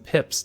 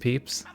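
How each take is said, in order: First: The vowel is a short i sound. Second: The vowel is a long ee sound.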